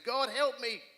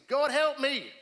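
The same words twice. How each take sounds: First: Higher, louder cry, a little less than the first; panicked plea to God. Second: Higher, much louder cry for help; panicked shout of a prayer; desperate cry to God. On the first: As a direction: call out for help again, panicking. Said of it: "and I'm panicking". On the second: Praying in panic at night. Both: Retold or imitated.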